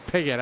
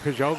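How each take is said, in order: First: The surname is said like an English name. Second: The surname is said like a French name. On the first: The speaker calls it right. "it's Piggott. I forgot" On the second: The speaker calls it wrong. "I think Peugeot"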